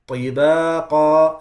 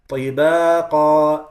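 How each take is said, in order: Both takes have the same delivery.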